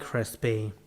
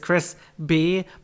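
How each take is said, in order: First: The name runs together with no pause. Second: There is a pause between the two parts. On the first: It sounds like the word crispy, meaning overcooked. "I said it without the pause, so it's like crispy" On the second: It is the person's actual name. "your actual name is Chris B"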